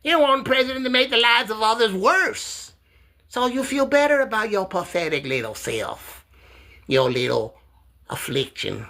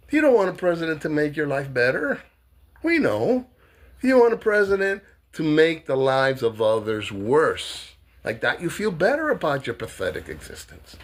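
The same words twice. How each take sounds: First: High, mocking sneer at Mark; high-pitched mocking jab at a heckler; high taunting voice. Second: Said in the usual way. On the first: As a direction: taunt him in a raised, sneering voice.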